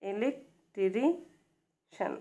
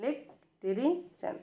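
First: Electrician stretched out very slowly and softer; very slow syllables. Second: Electrician repeated slowly, softer, rising at the end. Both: Shown as a demonstration. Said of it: "أربع مقاطع أهي".

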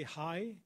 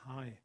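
First: Said in the usual way. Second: Lower, softer retold greeting; a low, subdued "hi". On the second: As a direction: answer low and weakly, as if from a sickbed. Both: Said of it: "a very low voice says".

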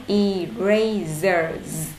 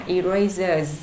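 First: "Erasers" stretched out very slow; read slowly. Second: Said in the usual way. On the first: Shown as a demonstration. Teacher slowing down for struggling pupils. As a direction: drag "Erasers" out syllable by syllable. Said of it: "Cô đọc chậm lại". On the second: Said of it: "Các bạn xì ra".

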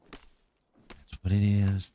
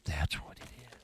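First: Very slow, stretched-out voice; slow drawn-out voice. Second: Breathy whisper. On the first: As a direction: drag every word out. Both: Shown as a demonstration. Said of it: "repeated in other voice".

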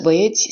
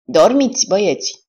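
First: Said in the usual way. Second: Louder, higher call to the men. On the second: Acted. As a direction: call the order across the room. Calling out goodnight to the men.

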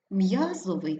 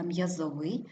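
First: М'Язовий, first syllable stressed. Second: М'язоВИЙ, ending stressed; stress on last syllable. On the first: Teacher showing double stress, stress on М'Я. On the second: Teacher showing double stress, stress on ВИЙ. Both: Shown as a demonstration. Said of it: "слова із подвійним наголосом".

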